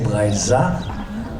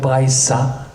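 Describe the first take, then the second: First: The middle consonant is a soft z. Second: The middle consonant is a hard s. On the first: "with a soft Z sound" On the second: "with a hard S"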